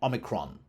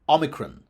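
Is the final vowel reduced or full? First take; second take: full; reduced. First: The final vowel is a full short vowel. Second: The final vowel is reduced to a schwa. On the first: "rather than Omicron" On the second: "You would expect Omicron"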